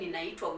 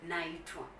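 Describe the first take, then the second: First: The word keeps its full first syllable, ni-na. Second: The word drops its first syllable, starting na. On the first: This is the form used in writing. "just the way it is written in books" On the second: This is the form used in everyday speech. "the way we use it in speech"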